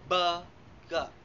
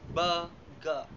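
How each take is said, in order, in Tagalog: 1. Nasa unang pantig ang diin. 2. Nasa unang pantig ang diin.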